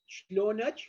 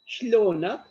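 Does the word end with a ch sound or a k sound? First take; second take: ch sound; k sound. First: The word ends with a ch sound. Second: The word ends with a k sound. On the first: This is the Iraqi dialect form. "in Iraq uh, dialect become Shlonach" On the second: This is the Syrian dialect form. "it is replaced by she, more soft. So kifak become Shlonak"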